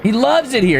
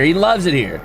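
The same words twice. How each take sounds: First: High gushing. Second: Laughing. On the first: Acted. Gushing over the figure. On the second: Real, not acted. Repeats through laughter.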